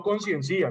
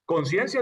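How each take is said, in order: First: "conciencia" mispronounced as con-cien-CÍ-a; "conciencia" ending in a separate, stressed CÍ-a; stress moved to I. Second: "conciencia" with its last "cia" unstressed, one syllable; stress on second syllable. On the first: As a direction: wrongly stress the last i of "conciencia". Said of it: "No conciencia". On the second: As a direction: put the force on the "cien" of "conciencia". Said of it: "conciencia sin tilde". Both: Shown as a demonstration.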